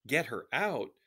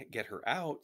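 First: Put-on incredulous question in a light southern French accent; higher, louder, with a hint of southern French. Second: Higher-pitched urgent plea; earnest plea from a worried daughter; pleading. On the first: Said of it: "said a man with a southern French accent". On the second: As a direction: press them for help, pitch raised. Girl pleads with resistance men for help. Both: A narrator's reading.

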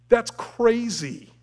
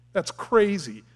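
First: Slow, loud, stretched exclamation; emphatic. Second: Said in the usual way. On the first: Acted. Preacher marvelling at Israel's griping, slow and loud. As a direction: drag out crazy in disbelief.

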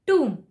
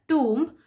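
First: Tomb said toom, silent B; tomb rhymes with room, no B. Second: Tomb with the B sounded, tomb-b; mispronounced tomb with B; wrong tomb. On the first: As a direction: correct tomb as /tum/. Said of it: "the B is silent". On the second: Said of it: "not tomb". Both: Shown as a demonstration.

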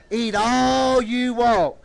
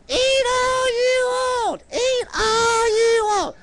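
First: Said in the usual way. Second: Very high, slow puppet squeak. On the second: Pretend. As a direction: stretch each word in a high puppet voice. Puppet answers what she said.

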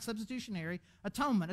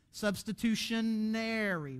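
First: "Substitutionary atonement" said quickly in one breath; rattled off. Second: "Substitutionary" said slowly, every syllable stretched out; drawn-out fancy word. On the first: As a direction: toss off "Substitutionary atonement" fast and easy. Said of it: "but you make it longer". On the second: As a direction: spell out "Substitutionary" slowly, savouring its length. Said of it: "but you make it longer, so it sounds fancier". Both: Shown as a demonstration.

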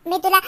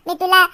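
The two takes are said the same way.

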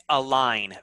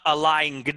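First: "align" said as a-line; "align" ending on a plain N; silent G. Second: "align" said as a-line-guhn; "align" with an audible G; wrong, sounded G. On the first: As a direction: drop the G in "align". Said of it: "It's align". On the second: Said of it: "It's not align". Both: Shown as a demonstration.

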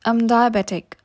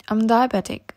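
No difference in how they are said.

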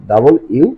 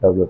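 First: ডাবল ইউ as full "double you"; corrected letter W. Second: Said in the usual way. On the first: Shown as a demonstration. Teacher correcting the W, ডাবল ইউ in full. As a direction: sound both parts of ডাবল ইউ. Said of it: "ডাবল ইউ উচ্চারণ করতে হবে". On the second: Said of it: "কি উচ্চারণ করতাম".

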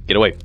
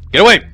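First: Said in the usual way. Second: Louder, higher yell of get away. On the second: Acted. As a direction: shout him off. Repeated plea, now yelled.

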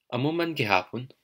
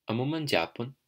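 First: Gihapon in three syllables, "gi-ha-pon"; full gihapon. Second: Japon in two syllables, starting with a "j" sound; contracted japon. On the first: Teacher modelling same as always either way, full gihapon. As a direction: say "Amo man gihapon" with gihapon unshortened. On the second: Teacher modelling the variant from Capiz and Negros, contracted japon. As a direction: say "Amo man japon" with gihapon shortened to japon. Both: Shown as a demonstration. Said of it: "you can say it either way".

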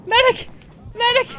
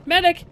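First: Loud high rising calls for a medic; man down shout. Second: Loud call for a medic; man down shout. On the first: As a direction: call out urgently, rising. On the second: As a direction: shout for help across the map. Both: Real, not acted. Calling for a medic in game.

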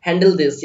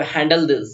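First: Handle this, said very slowly word by word; slow teacher dictation; slow, spelled-out practice. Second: Said in the usual way. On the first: Shown as a demonstration. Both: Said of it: "handle this या handle it".

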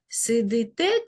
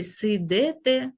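First: "Сидите" slowly, си-ди-те with clear и; Y in the ending. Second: "сидите" altered to си-де-те; E in the ending. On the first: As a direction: pronounce "Сидите" carefully with и after д. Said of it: "тому пропущена буква". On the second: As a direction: say "сидите" slowly with е after д. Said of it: "чи". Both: Shown as a demonstration.

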